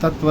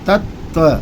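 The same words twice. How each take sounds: First: The middle t sound is said once, plainly. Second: The middle t sound is doubled and held. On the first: The speaker calls it wrong. "तत्व को सीधे सीधे तत्व नहीं बोलना है" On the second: The speaker calls it right. "यहाँ पर आधा ता जो है दो बार है"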